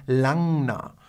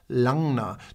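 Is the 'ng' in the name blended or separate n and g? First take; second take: blended; blended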